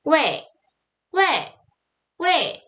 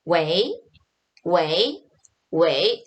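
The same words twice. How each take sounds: First: 웨이 high and short, dropping sharply; falling tone. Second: 웨이 from low, sweeping up at the end; second-tone rising. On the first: Teacher modelling a rude hail, high falling tone. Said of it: "이렇게 읽어주셔야 돼요". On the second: Teacher modelling a phone hello, rising second tone. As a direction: say 웨이 as a questioning hello. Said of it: "이성으로 읽어주셔야 돼요". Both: Shown as a demonstration.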